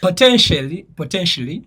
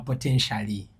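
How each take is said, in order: First: "potentially" as "po-ten-shlee"; SH runs straight into L in "potentially"; silent A. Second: "potentially" as "po-ten-sha-lee"; lower, with the A voiced in "potentially"; full "sha" syllable in "potentially"; A sounded. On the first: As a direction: drop the A in "potentially". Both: Shown as a demonstration. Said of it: "mu kifo ky'ogamba potentially".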